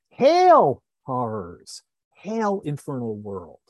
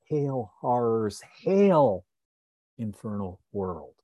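First: The first 'hail' is stressed more strongly. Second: The second 'hail' is stressed more strongly. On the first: It is read as ordinary prose. "If we were reading it in prose, we would read it as something like" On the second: It is read following the verse meter. "because it's the end of the line, we tend to read it more as ... It's pushing us to stress the second hail rather than the first"

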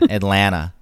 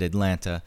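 First: The T near the end is dropped. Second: The T near the end is clearly pronounced. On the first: The speaker sounds like a local. The speaker calls it right. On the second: The speaker sounds like someone who no longer lives there. The speaker calls it wrong.

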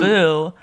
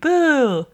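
First: It sounds like a disapproving jeer. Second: It sounds like a spooky ghost.

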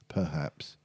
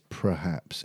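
First: The opening sounds are said in usual order. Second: The opening sounds are said in swapped order. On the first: This is how the word is normally said. The speaker calls it right. "instead of perhaps" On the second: This is how the presenter says it. The speaker calls it wrong. "he says perhaps"

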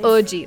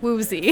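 First: The name begins with a vowel sound. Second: The name begins with a W sound. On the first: The speaker calls it right. "The actual way you pronounce his name is O-G" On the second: The speaker calls it wrong. "I would pronounce it Woozy"

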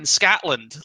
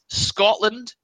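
First: The first vowel sounds like the 'a' in cat. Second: The first vowel sounds like the 'o' in cot. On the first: The speaker calls it wrong. "not fucking Scatland" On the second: The speaker calls it right. "It's Scotland"

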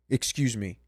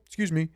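First: The voice is plain, flat and manly. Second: The voice is light, dainty and lifted upward. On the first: The speaker sounds matter-of-fact and confident. The speaker calls it right. "Like a fucking man says it" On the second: The speaker sounds overly polite and awkward. The speaker calls it wrong. "I just felt like the biggest dork"

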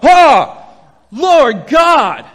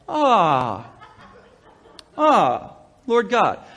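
First: It sounds like a sudden, shocked exclamation. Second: It sounds like a slow, musing realization.

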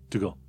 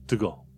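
The two takes are said the same way.

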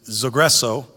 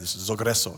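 First: The word is said in a plain English accent. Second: The word is said in a Spanish accent. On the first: "I didn't say it in, you know, in a Greek accent" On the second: "I said in Spanish"

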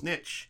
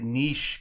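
First: The word is pronounced the English way. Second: The word is pronounced the French way. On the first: The speaker calls it wrong. "I would say niche because I just thought it was niche" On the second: The speaker calls it right. "it's actually niche because it's what, French"

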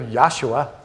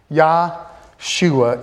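First: The name is said quickly, run together. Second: The name is said slowly, in two parts.

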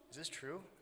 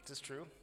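First: It is said in a hopeful tone. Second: It is said in a sarcastic tone.

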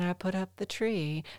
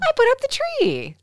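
First: The voice sounds sad and low. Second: The voice sounds cheerful and bright. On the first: The tree was taken down and stored for the season. "If you say it like this, ... that means you put it away for the season" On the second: The tree was set up for display. "It means you put it up"

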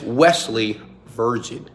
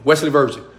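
First: The name is said slowly. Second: The name is said quickly. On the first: Listeners will remember the name. The speaker calls it right. "make sure that when you say your name, say it slowly" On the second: Listeners will not remember the name. The speaker calls it wrong. "You say your name too fast, they don't remember you"

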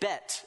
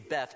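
First: The word ends with a plain t sound. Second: The word ends with a th sound. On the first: This is the original Hebrew pronunciation. "bet is the way you say it in Hebrew" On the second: This is the usual English pronunciation. "We say Beth"

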